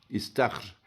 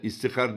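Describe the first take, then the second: First: It is said as istahr, with no vowel after h. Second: It is said as istihar, with an extra i and a. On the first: The speaker calls it right. "İstahr olacak" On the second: The speaker calls it wrong. "istihar diyenler var. ... Hepsi yanlış"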